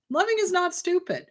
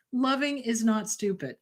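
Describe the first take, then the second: First: "Loving" lifted higher and pressed, insisting; emphatic repeat. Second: Said in the usual way. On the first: Shown as a demonstration. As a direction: drive the repeat home with a higher pitch on "Loving". Repeats line, second more forceful.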